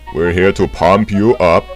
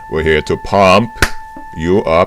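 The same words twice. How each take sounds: First: It runs on with no pause before "you". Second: There is a pause just before "you". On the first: The speaker calls it wrong. "I didn't quite intone that correctly" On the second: The speaker calls it right. "there's supposed to be a pause before the U"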